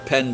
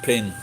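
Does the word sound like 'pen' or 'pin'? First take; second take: pen; pin. First: The vowel is an open 'e' sound. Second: The vowel is raised toward an 'i' sound. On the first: "So a pen" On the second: "becomes pin"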